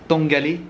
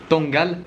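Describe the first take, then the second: First: The name ends with a final vowel sound. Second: The name ends on a consonant sound. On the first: The speaker calls it wrong. "je vous ai dit qu'on partait en direction de la ville de Tangalé, mais en fait" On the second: The speaker calls it right. "ça se prononce Tangal"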